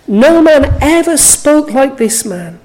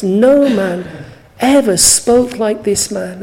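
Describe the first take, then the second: First: "No man ever spoke like this man" declared louder and higher from the first word; emphatic declaration. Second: Said in the usual way. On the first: Shown as a demonstration. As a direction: hit "No man" hard, then carry the conviction through to "this man". Repeats verse as congregation's own confession.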